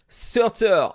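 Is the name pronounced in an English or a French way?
French. The name is said with French-style pronunciation. "as I would call him in French"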